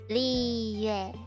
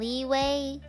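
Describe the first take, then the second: First: The name ends with a 'yoo-eh' sound. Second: The name ends with a 'way' sound. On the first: The speaker calls it right. "Please please say Liyue" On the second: The speaker calls it wrong. "I hope people stop saying leeway"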